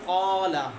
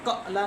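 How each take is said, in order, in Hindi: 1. स्वर बिना झटके के सहज रूप से बहता है। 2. स्वर अचानक झटके से कट जाता है। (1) "अलिफ जो है बगैर झटके के" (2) "ऐसे नहीं करना, कला कला नहीं पढ़ना"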